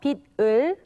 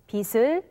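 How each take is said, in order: First: The final consonant keeps its standalone sound. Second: The final consonant changes its sound before 을. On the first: The speaker calls it wrong. "it's not" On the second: The speaker calls it right. "but it's"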